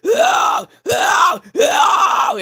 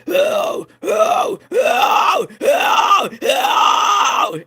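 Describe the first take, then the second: First: Very high, loud shouted oh screams. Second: Series of loud, pushed mid screams; short fry screams, each pushed hard in the mid range; midtone fry screams. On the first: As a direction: reach for the heights with a scream. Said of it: "and I could start hitting those". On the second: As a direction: demonstrate repeated screams in the midtones. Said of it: "I could do midtones really well". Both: Shown as a demonstration.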